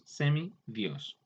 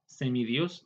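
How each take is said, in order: First: "semidios" slowly as semi, then dios; split into parts. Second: Said in the usual way. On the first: Shown as a demonstration. Teacher showing a compound's parts, "semidios" slow and separated. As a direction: pull "semidios" apart into its two words. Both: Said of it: "al compuesto".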